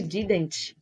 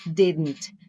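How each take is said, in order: First: "didn't" with a fully released final T; hard final T. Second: "didn't" with a softened, barely released final T; soft final T. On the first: Teacher showing what she didn't say, "didn't" with hard T. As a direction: sound out the T at the end of "didn't" strongly. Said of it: "Veja que eu não disse". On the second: Teacher modelling better pronunciation for learners, "didn't" with soft T. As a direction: ease off the T at the end of "didn't". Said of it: "Tenta falar de uma forma bem suave". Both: Shown as a demonstration.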